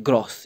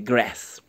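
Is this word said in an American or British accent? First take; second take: British; American. First: The word is said in a British accent. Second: The word is said in an American accent. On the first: "We in British English, they say grass" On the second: "In American, they say grass"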